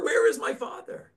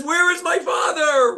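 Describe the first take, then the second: First: Said in the usual way. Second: Much higher, loud cry "Where is my father?"; a terrified boy crying out for his father; frightened shout. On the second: Acted. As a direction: yell it as a scared child seeing a dog. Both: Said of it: "frightens the young boy".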